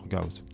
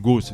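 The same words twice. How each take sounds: First: The name is said with its original German pronunciation. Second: The name is said with a French pronunciation. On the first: "moi je préfère dire Gauss" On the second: "tu peux l'appeler Gauss si tu préfères"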